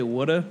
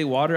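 First: Woulda for water, New Jersey style; New Jersey pronunciation. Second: Water in general American; standard pronunciation. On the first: Imitating a biologist, woulda in New Jersey accent. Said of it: "I say woulda, 'cause I'm from New Jersey". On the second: Retelling the biologist's disclaimer, water said the standard way. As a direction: say water with an "ah" and a final R. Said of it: "I don't say water". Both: Retold or imitated.

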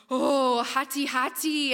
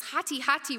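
First: Loud, drawn-out mock alarm; wide-eyed alarm. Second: Said in the usual way. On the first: Indonesian fishermen echo the danger word, slow mock alarm. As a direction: imitate awed fishermen, stretching the warning slowly. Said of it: "and their eyes are wide".

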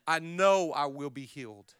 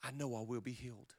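First: Firm, steady, stress on know; firm repeat. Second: Soft, inward murmur; softly, believing it; quiet confession. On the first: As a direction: say know firmly. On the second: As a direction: say it under your breath, to yourself. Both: Shown as a demonstration. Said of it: "I choose to say".

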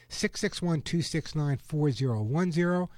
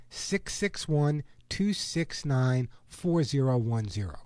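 First: Said in the usual way. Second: Slow, spaced-out phone number. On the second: Real, not acted. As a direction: read each digit slowly, group by group. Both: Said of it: "I'm gonna say it slowly now".

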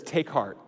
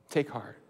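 First: Said in the usual way. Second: Softer echo, letting Take heart sink in; softly repeated. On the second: Shown as a demonstration. Preacher savouring the phrase, repeated softly. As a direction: murmur it back gently.

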